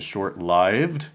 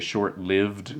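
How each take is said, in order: First: The vowel in 'lived' sounds like in 'life'. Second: The vowel in 'lived' sounds like in 'give'. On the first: The speaker calls it right. "the correct pronunciation is short-lived, that is, having a short life" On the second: The speaker calls it wrong. "a lot of people say short-lived"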